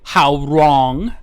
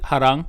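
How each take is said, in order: First: The first syllable sounds like 'how'. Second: The first syllable sounds like 'ha'. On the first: This is how most Americans say it. "most Americans would say how wrong" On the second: This is how most Koreans say it. "I always pronounce it harang. Uh, I think that's how most Koreans pronounce it"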